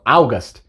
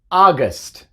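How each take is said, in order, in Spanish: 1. La U se pronuncia después de la A. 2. La A se dice sola, la U es muda. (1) "muchos dicen eso" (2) "Simplemente es A"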